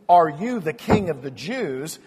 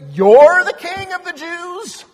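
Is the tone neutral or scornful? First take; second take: neutral; scornful. First: It is asked as a plain, neutral question. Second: It is asked with scornful disbelief.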